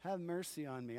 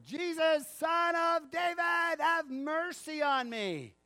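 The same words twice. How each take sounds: First: Soft echo. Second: High, slow, loud plea for mercy; louder cry. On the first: Shown as a demonstration. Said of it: "repeated softly after the shout". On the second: Acted. Blind man shouting over the crowd, slow and desperate. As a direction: stretch it out and shout it over everyone. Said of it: "he says it again, all the louder".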